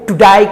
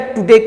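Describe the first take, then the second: First: The word ends with a broad 'die' vowel. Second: The word ends with a plain 'day' vowel.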